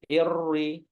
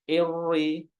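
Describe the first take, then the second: No difference in how they are said.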